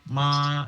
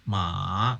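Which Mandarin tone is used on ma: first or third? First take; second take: first; third. First: The syllable is said with the first tone. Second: The syllable is said with the third tone. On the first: It means mother. "tangga nada ke satu, ma itu artinya mama" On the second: It means horse. "kalau yang ketiga, ma itu artinya kuda"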